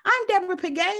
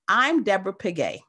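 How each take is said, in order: First: The voice rises at the end. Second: The voice falls at the end. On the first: The speaker sounds unsure of herself. The speaker calls it wrong. "how sometimes women introduce themselves" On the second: The speaker makes a confident statement. The speaker calls it right. "let the voice fall at the end. That's a statement"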